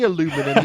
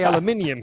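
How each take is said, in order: First: It has four syllables, without the extra vowel. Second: It has five syllables, with an extra vowel. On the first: This is the North American usage. "You can say that in the N A bracket" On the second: This is the European usage. "you say aluminium here"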